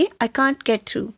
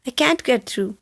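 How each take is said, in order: First: "can't" said with a long open ah, British style; British "can't" like kahnt, said slow and careful; British English can't. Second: "can't" said with a flat short a, American style; American English can't. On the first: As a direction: stretch "can't" as kahnt, slowly. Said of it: "British English میں ہم can't بولتے ہیں". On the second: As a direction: say "can't" like kant, at a normal pace. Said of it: "American میں can't بولتے ہیں". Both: Shown as a demonstration.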